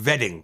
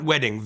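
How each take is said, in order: First: Wedding begun with a V sound. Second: Said in the usual way. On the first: Shown as a demonstration. Comic correcting the word, wedding said with an Indian V. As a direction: say wedding as "vedding". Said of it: "what is vat". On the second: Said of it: "Not wedding".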